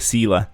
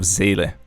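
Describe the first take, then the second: First: The name is pronounced with an English reading. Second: The name is pronounced with a German reading. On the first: The speaker calls it wrong. "all the English YouTubers pronounce Zayle's name incorrectly" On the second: The speaker calls it right. "instead of Zayle"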